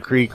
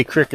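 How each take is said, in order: First: Said in the usual way. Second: "crick" with a short i; Pittsburgh pronunciation of creek as "crick". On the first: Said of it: "instead of creek or creek". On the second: Shown as a demonstration. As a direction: say "crick" to rhyme with "brick". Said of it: "We say crick instead of creek".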